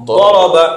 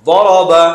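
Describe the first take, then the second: No difference in how they are said.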